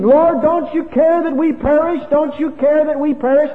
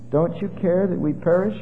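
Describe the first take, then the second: First: High, loud terrified cry; panicked scream. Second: Said in the usual way. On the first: Retold or imitated. Frightened disciples scream at sleeping Jesus, high and loud. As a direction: cry out to the Lord as the boat sinks. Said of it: "these men screaming".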